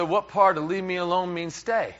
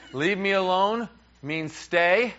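First: Incredulous husband's question, run straight through; mildly exasperated comic question; acted bafflement. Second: "Leave me alone means stay" slowed right down, rising on "stay"; "Leave me alone", then "means stay?" as a slow, rising question; slow questioning recap. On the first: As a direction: retell it as a puzzled protest. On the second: Retold or imitated. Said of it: "let's go over this again".

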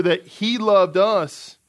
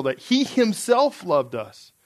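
First: Said in the usual way. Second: Slow, emphatic "himself"; stress on HIMSELF. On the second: Shown as a demonstration. Preacher shows the original's emphatic wording, stressing "himself". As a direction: lean into "himself", drawing the phrase out slowly. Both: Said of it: "it's actually more emphatic even in the original".

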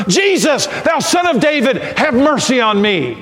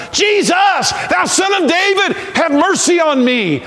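First: High, pleading call for mercy; crying out louder. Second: Very high, shouted plea for mercy; crying even louder. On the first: Blind Bartimaeus begging Jesus for mercy, crying out. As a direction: call out to Jesus over the crowd. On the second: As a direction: shout to Jesus at the top of your pitch. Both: Acted. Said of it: "he cried the louder".

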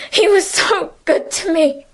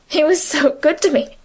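First: The second time the grief breaks through; voice breaking into tears. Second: Said in the usual way. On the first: A narrator's reading. Emily to Francine, breaking down into tears. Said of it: "burst out crying".

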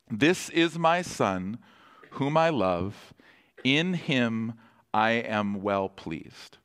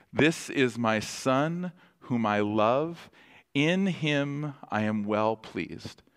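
First: Slow, measured quote; voice of God. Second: Slow, gentle quote; voice of God. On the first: Pastor voicing the Father over the Son, slow and solemn. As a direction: lay each phrase down slowly and solemnly. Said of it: "the voice of God says to Jesus". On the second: Pastor repeating the Father's blessing, slow and gentle. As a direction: let each phrase settle slowly. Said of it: "God the Father says over him". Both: Retold or imitated.

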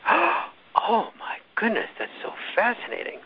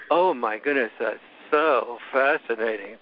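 First: High-pitched, drawn-out gushing awe; mock fascination. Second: Slow, unimpressed sarcastic imitation; mock boredom. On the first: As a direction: imitate a breathlessly fascinated interviewer. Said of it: "Another time she'll go". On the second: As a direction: drag it out as if utterly uninterested. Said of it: "Another time she'll, she'd go".

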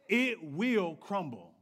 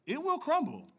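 First: Slow, heavy stress on "it" in "It will crumble"; "It will crumble" drawn out, weight on "It"; slow warning. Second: "will" in "It will crumble" pitched high and punched; "It WILL crumble" with a high peak on "will"; stress on will. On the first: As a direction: let "It" land slowly and gravely in "It will crumble". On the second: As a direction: lift "will" sharply, then drop "crumble". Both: Shown as a demonstration.

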